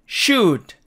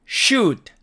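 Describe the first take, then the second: The two takes are said the same way.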